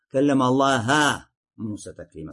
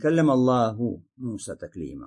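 First: The word Allah ends with an a vowel. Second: The word Allah ends with a u vowel. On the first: God is the one spoken to. The speaker calls it wrong. "С Аллахом Муса говорил, ведя с ним беседу" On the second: God is the one who spoke. The speaker calls it right. "Аллах говорил с Мусой, ведя с ним беседу"

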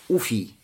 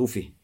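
First: The word ends with an ee vowel. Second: The word ends with an h sound. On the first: "Можно сказать с дамой в начале и с я" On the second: "Можно сказать с га на конце"

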